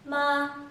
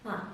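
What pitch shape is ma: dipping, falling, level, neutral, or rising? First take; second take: level; neutral. First: The pitch stays high and level. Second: The syllable is short and toneless. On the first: "The first tone, or the high tone, remains the same" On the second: "The fifth tone has no pitch"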